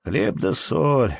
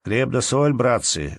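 First: Slow, drawn-out greeting, pitched up. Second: Raised-pitch greeting to the company; hearty greeting. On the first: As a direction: stretch out the words of greeting. Антон greets in his turn. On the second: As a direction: greet the table in a lifted voice. Рыженький greets the men at supper. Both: A narrator's reading.

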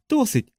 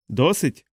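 First: ДОСИТЬ pitched very high, then falling; exclaimed answer. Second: ДОСИТЬ as a question, rising at the end. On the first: Boy answers that it is enough. (високий вигук «ДОСИТЬ» зі спадом) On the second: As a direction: ask ДОСИТЬ with a lifted ending. Uncle asks whether it is enough. (запитальне «ДОСИТЬ» з підйомом наприкінці) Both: A narrator's reading.

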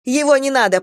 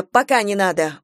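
First: Raised, louder stop command; loud urgent order. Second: Said in the usual way. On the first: Acted. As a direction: halt him sharply.

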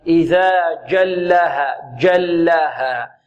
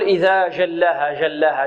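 First: Slow جلها with a firm stopped "j"; correct hard jim. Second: جلها with jim softened to "zh", "zhallaaha"; wrong soft jim. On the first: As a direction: stop the sound on the jim of جلها, then draw out the vowels. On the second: Teacher shows what not to say, soft leaking jim. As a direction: let the sound flow in the jim of جلها. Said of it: "لا نقول". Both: Shown as a demonstration.

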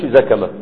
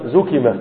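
First: زكمة said with a-vowels, "zakama"; rejected active form. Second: زكمة said with u then i, "zukima"; correct passive form. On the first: Teacher telling students what not to say, active pronunciation. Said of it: "ما تقولش زكمة". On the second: Teacher giving the only valid form, passive pronunciation. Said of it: "إنما زكمة". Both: Shown as a demonstration.

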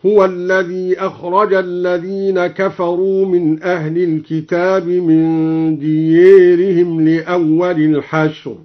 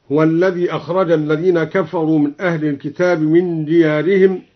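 First: ديارهم recited with the long a leaning toward e; slow recitation, ديارهم with imala; chanted reading, the vowel in ديارهم tilted. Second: Said in the usual way. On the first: Shown as a demonstration. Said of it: "بإمالة ديارهم". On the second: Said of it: "قرأ بإمالة ديارهم".

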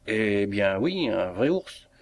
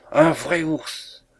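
First: Drawn-out, matter-of-fact reply; unruffled confirmation. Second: High, drawn-out cry of alarm; pitched-up, stretched shock; alarmed exclamation. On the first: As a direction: confirm it slowly, taking it in stride. Sergeant calmly confirms the bear. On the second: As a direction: cry it out slowly, aghast, as if fleeing. Usherette flees, discovering a bear. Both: A narrator's reading.

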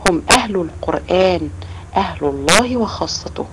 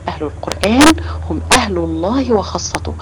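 First: Slow, measured quoting of the Prophet's words; slow hadith recitation. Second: Said in the usual way. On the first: Retold or imitated. Teacher slowly reciting the hadith to the children, measured. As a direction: recite each word deliberately. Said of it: "فالرسول عليه الصلاة والسلام قال". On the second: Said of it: "يعني ايه؟".

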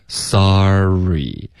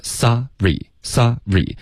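First: "sorry" drawn out as one linked sar-ree; slow glide through the R; continuous airflow. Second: "sorry" chopped into sa, pause, ree; slow, with a gap mid-word; split syllables. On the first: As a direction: stretch "sorry" without any break. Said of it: "气流是连贯的说出来". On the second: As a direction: break "sorry" cleanly after sa. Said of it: "一个sa". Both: Shown as a demonstration.

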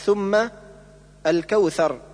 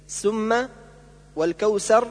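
First: ثم الكوثر with interdental th; tongue between teeth for ث in ثم الكوثر; correct tha. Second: ثم والكوثر with ث hissed as s; tha as s. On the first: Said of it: "والصواب". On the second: Teacher showing the error, ثم والكوثر with s. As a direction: put an s in place of ث in ثم والكوثر. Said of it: "كالنطق بالثاء سينا". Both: Shown as a demonstration.

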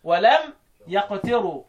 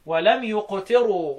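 First: "يقتروا" recited slowly as yaqtiru, open ya; fatha reading. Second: "يقتروا" recited slowly as yuqtiru, u on the first letter; damma reading. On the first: Teacher reciting the other readers' "يقتروا" with ya. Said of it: "بقية القراء يقرأوا بالإيه؟ بالفتح". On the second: Teacher reciting Nafi's "يقتروا" with the first letter as yu. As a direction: open "يقتروا" with a clear yu, slow recitation. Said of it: "لم يقتروا تبقى ضم". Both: Shown as a demonstration.

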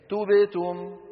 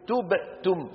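First: توبئتم said in one smooth run, no gap; joined smoothly. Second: توبئتم with a silent break inside the word; with a wrong gap. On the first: Teacher shows students the correct form, joined and smooth. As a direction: glide straight through توبئتم without stopping. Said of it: "يقطعون، يدخلون، على طول". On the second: Teacher shows students the faulty gap, broken up. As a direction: pause wrongly inside توبئتم before the ending. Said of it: "هالفراغ هذا أو هذا السكت". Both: Shown as a demonstration.

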